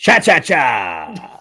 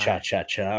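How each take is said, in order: First: It is said with more emphasis and energy. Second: It is said flatly, with little energy.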